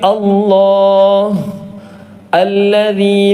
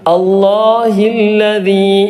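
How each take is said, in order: First: The voice stops after the first word, then continues. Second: The two words run together without a pause. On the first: "അവിടെ നിർത്തുകയാണെങ്കിൽ" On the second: "അവിടെ നിർത്താതെയാണ് ഓതിയത്"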